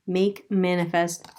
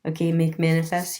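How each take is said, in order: First: Slow, with the word Make leaned on hard; stress on MAKE. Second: Said in the usual way. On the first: Shown as a demonstration. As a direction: slowly, hit Make so it stands apart from manifest. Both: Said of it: "Interesting, because making is".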